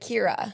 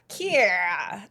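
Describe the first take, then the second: First: The name is said with a plain, unaccented vowel. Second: The name is said with a southern-accented vowel. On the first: "it's really just Kira" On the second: "you guys kind of pronounce it like Kiera"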